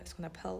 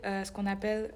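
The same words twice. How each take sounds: First: French phrase "ce qu'on appelle" with a light English accent. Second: Said in the usual way. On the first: Real, not acted. (accent anglais léger sur "ce qu'on appelle") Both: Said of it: "j'ai pris un accent anglais avant".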